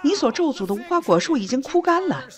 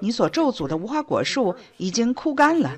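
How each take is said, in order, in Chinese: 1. 语气惊讶、兴奋。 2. 语气平淡，就事论事。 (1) "可能更像是，哇" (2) "彼得走过无花果树时不会就这么说"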